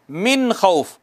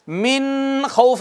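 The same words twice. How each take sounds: First: मिन खौफ with a clear नून before खौफ; correct reading. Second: मिन खौफ with the नून hidden, demonstrated as wrong; wrong reading. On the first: Teacher giving the correct reading of मिन खौफ. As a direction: sound the नून of मिन plainly, then खौफ. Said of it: "क्या पढ़ना है?". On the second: Teacher showing the mistake before खा. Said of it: "नहीं पढ़ना". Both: Shown as a demonstration.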